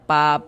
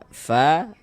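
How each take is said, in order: First: It begins with a closed-lip p sound. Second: It begins with a breathy f sound. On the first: The speaker calls it wrong. "Jangan dibaca pa" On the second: The speaker calls it right. "Tapi dibaca fa"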